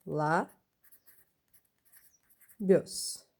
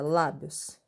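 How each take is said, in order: First: "lá, bios" split in two with a long pause; syllable by syllable. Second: Said in the usual way. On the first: Shown as a demonstration. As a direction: say "lá", wait, then "bios". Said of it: "vai ficar". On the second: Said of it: "quando a gente separa".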